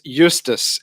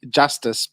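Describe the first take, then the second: First: The name begins with a Y sound. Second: The name begins with a J sound. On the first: The speaker calls it right. "is the correct way of pronouncing it" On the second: The speaker calls it wrong. "as me being a Soti, you know, it's going to be have to be Justice"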